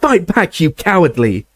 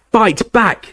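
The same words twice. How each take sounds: First: High screaming insult. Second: High screaming demand; Harry screaming at Snape to fight; screamed. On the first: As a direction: hurl it as a scream. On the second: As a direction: scream it at him in fury. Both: Acted. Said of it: "Harry screamed at him".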